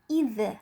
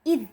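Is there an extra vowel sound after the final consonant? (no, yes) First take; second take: yes; no. First: An extra vowel sound follows the final consonant. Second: The word ends cleanly on the final consonant. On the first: The speaker calls it wrong. "Bukan idz" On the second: The speaker calls it right. "tetapi idz. Tidak boleh ada suara e di akhir"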